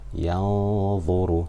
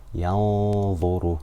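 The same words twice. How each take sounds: First: The n sound is hidden in a nasal hum. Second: The n sound is hidden in a nasal hum.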